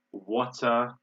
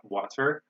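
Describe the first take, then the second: First: Water with a crisp T and no final R; British T. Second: Water with a tapped middle and a clear final R; American pronunciation. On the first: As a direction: say "water" the British way, T fully sounded. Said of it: "they would pronounce it as T". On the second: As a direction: say "water" the American way, R-coloured ending. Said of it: "I say it like this". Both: Shown as a demonstration.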